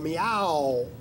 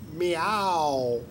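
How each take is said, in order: First: The stress is on the second syllable. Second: The stress is on the first syllable. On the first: "the accent on the ow" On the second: "then the accent on the me"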